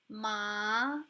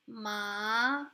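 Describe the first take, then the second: First: The pitch rises upward. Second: The pitch rises upward.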